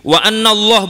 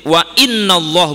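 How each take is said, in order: First: The particle after 'wa' begins with an 'a' vowel. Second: The particle after 'wa' begins with an 'i' vowel. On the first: The clause continues the previous sentence. "Kalau wa anna ini bil fathi atfan, dibaca fathah" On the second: The clause starts a new sentence. "Tapi kalau dibaca inna di sini istinafan"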